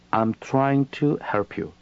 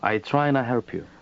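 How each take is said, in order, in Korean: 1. "trying to"는 음절 하나하나 다 풀어서 말합니다. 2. "trying to"는 빠르게 붙여서 "tryna"처럼 말합니다.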